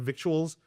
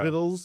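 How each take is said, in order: First: It is said in three syllables, like vic-tu-als. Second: It is said in two syllables, like vittles. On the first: "I would go by victuals" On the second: "It could be pronounced vittles"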